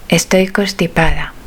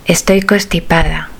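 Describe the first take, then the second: No difference in how they are said.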